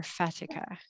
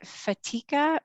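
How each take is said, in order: First: "Fatika" as FAT-ih-kuh; stress on first syllable. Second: "Fatika" as fuh-TEE-kuh; stress on second syllable. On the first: Host offering another surname reading, "Fatika" said FAT-ih-kuh. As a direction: say "Fatika" with a short A, stressed at the front. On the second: Host checking guest's surname, "Fatika" said fuh-TEE-kuh. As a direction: say "Fatika" with a long, stressed EE in the middle. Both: Shown as a demonstration. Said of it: "I got it right the first time".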